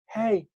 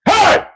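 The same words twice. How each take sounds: First: It is said softly with little force. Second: It is said loudly with strong force. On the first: The call will not carry far. The speaker calls it wrong. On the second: The call carries far. The speaker calls it right.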